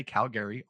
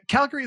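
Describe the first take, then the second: First: "Calgary" with a full GARE in the middle; non-local stress. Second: "Calgary" stressed on the first syllable, middle swallowed; local pronunciation. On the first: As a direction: say "Calgary" like an outsider, cal-GARE-ee. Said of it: "put the emphasis on the wrong syllable". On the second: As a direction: say "Calgary" like a local, CAL-gree. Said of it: "Calgary is the same thing". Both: Shown as a demonstration.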